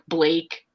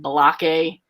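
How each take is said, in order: First: The name is said as one syllable. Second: An extra vowel splits the name into two syllables. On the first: The speaker calls it right. "basic common name like" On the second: The speaker calls it wrong. "he pronounces it Balake"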